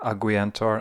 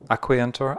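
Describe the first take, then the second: First: The consonant after the first vowel is a G. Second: The consonant after the first vowel is a K. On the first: "it could be a G sound" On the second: "it could be a K sound"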